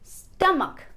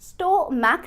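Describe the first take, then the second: First: The first syllable is stressed. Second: The first syllable is not stressed. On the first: The speaker calls it right. "पहले syllable पर stress आएगा" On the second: The speaker calls it wrong. "Stomach नहीं"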